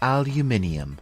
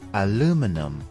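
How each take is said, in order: First: It is said with a British English pronunciation. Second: It is said with an American English pronunciation.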